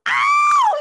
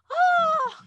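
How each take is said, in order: First: It is shouted loudly like a rocker. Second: It is said weakly, without energy.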